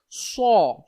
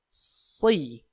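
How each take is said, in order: First: The lips are pushed forward and rounded. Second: The lips stay relaxed, the tongue shapes it. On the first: The speaker calls it wrong. "untuk melakukan huruf so itu bibir sampai moncong, sampai menebal ke depan" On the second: The speaker calls it right. "Dia termasuk lidah yang bermain"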